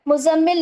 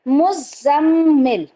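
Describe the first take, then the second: First: The z sound is short and single. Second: The z sound is held long and doubled. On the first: The speaker calls it wrong. "मुज़म्मिल नहीं होता" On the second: The speaker calls it right. "जा के ऊपर तशदीद होता है तो इसका प्रोनाउंस सही से करना है"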